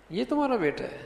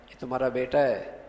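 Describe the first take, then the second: First: High-pitched surprise, falling away at the end; high, amazed query; astonished question. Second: یہ تمہارا بیٹا ہے low and falling, giving information; lower-pitched declarative یہ تمہارا بیٹا ہے; statement tone. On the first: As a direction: ask it in disbelief, voice up high. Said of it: "حیرت کا اظہار ہے". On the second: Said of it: "خبر دے رہا ہوں". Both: Shown as a demonstration.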